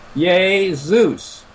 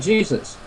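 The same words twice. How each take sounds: First: The name is pronounced the Italian way. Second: The name is pronounced the English way. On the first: "if you were to go to, to Italy, uh, you would pronounce the Savior's name as Jesus" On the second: "We say Jesus"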